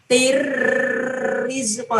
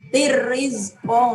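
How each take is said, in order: First: The first syllable is held with a trembling hum. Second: The first syllable is short with no nasal hum. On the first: The speaker calls it wrong. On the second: The speaker calls it right.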